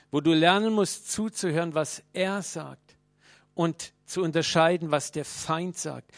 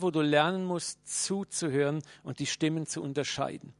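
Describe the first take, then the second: First: Lernen hit louder, then was er sagt and was der Feind sagt slowed right down; emphatic repeat. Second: Said in the usual way. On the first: Shown as a demonstration.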